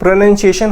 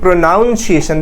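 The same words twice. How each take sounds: First: The second syllable sounds like 'nun', not 'noun'. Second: The second syllable sounds like the word 'noun'. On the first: The speaker calls it right. "प्रोनाउंसिएशन का उच्चारण प्रोनाउंसिएशन होता है" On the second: The speaker calls it wrong. "ना कि प्रोनाउंसिएशन। There is no नाउन।"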